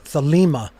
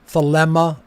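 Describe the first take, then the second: First: The second vowel is a long ee sound. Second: The second vowel is a short eh sound. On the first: "an iota" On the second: "another epsilon"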